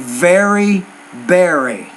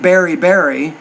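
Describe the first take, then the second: First: The first word starts with a V sound. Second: The first word starts with a B sound. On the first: The speaker calls it right. "I'm saying very berry" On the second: The speaker calls it wrong. "I'm not saying berry berry"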